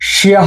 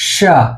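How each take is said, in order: First: It is said as two syllables, shi-ya. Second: It is said as one syllable, sha. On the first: The speaker calls it wrong. "এটার উচ্চারণ শিয়া হবে না" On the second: The speaker calls it right. "এটার উচ্চারণ হবে শা"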